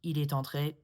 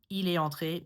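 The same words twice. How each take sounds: First: The t of est links to entré. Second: The t of est is not sounded. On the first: "just sounds a little bit more proper" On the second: "is totally fine"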